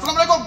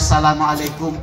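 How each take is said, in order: First: It is said in an angry tone. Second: It is said warmly, with a smile.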